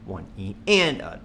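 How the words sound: The stress falls on the word and. "The next bar will be on the and"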